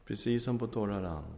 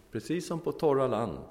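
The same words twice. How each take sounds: First: Said in the usual way. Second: Torra said higher and louder, landing hard on torra; emphatic repeat. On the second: Shown as a demonstration. Preacher stressing the miracle to the congregation, emphatic. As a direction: lift and hit torra, then let it fall.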